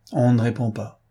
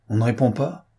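First: Said in the usual way. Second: "on ne répond pas" rising at the end; questioning tune. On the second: A narrator's reading. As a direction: ask "on ne répond pas" with a final rise. Lupin checks the report.

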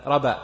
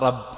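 First: رب as raba, with a single light b; dropped shadda. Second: رب as rabb, with a firmly doubled b; correct shadda. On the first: Teacher showing the faulty recitation, رب with single b. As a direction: leave the b undoubled in رب. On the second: Teacher showing what was omitted, رب with doubled b. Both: Shown as a demonstration. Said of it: "ما قال رب".

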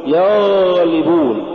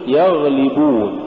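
First: يغلبون with a long droning gh; yaghhh-libun, exaggerated gh in يغلبون; overdone softness. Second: يغلبون with a brief gh; moderately flowing ghayn in يغلبون; balanced ghayn. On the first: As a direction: drag out the ghayn in يغلبون. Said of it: "ولا تقل". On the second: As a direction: say يغلبون without dragging the gh. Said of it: "قل". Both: Shown as a demonstration.

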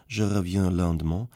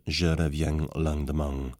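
First: Said in the usual way. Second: "Je reviens lendemain" with southern French nasals, an audible G after each en sound, "reviang langdemang"; southern French twang on "lendemain"; "Je reviens lendemain" in a southern French accent, nasal vowels ending in a hard ng. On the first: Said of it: "südfranzösischen Akzent". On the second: Shown as a demonstration. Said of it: "jeder En-Laut mit einem deutlich hörbaren G verstärkt".

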